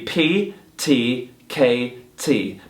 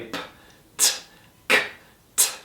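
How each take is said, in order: First: Each is said as a letter name with a vowel. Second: Each is a bare, percussive consonant without a vowel. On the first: The speaker calls it wrong. "The letter is going to be P, T, K, T. But we're not going to say it like that" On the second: The speaker calls it right. "very plosive sounds. We're not going to have any vowels"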